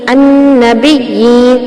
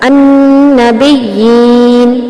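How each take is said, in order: First: The long vowel is held for two beats. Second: The long vowel is held for four beats. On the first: "सिर्फ दो हरकत के बराबर अब लंबा करते हुए" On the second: "ये हो गया तवस्सुत।"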